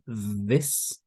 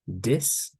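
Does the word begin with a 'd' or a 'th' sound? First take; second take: th; d. First: It begins with a voiced th sound. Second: It begins with a d sound.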